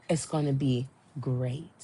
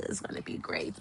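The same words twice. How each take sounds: First: Said in the usual way. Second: Very soft, voiceless gush; awed whisper. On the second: Real, not acted. Fan savoring next summer's concert, whispered excitement. Gushing repeat, dropped to a whisper.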